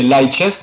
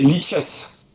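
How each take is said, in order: First: Lichess said "lie-chess", with a long "lie"; Lichess: first syllable "lie", then "chess". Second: Lichess said "lee-chess", with a short ee; Lichess: first syllable "lee", then "chess". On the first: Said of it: "so you say Lichess in English". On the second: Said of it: "or you, you say Lichess, no?". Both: Shown as a demonstration.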